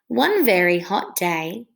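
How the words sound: The words flow together like talking.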